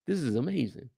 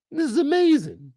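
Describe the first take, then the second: First: "This is amazing" said soft and low; quiet awe. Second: Excited praise. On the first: Praising the show, first softly in awe. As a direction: breathe out "This is amazing" in hushed awe. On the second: Praising the show, second time high and excited. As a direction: burst out "This is amazing" with excitement. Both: Real, not acted.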